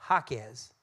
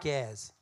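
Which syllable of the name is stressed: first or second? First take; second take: first; second. First: The stress is on the first syllable. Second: The stress is on the second syllable. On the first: The speaker calls it right. "our last name is actually pronounced Jaquez" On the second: The speaker calls it wrong.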